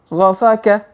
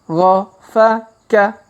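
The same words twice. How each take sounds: First: The syllables are read quickly. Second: The syllables are read slowly. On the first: "Kalau dipercepat" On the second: "Kita baca pelan-pelan"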